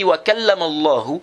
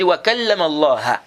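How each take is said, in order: First: The name Allah ends with a 'u' vowel. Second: The name Allah ends with an 'a' vowel. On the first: God spoke to Moses. The speaker calls it right. "le dit wa kallama Allahu" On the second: Moses spoke to God. The speaker calls it wrong. "Tu as changé ici, là la voyelle ici"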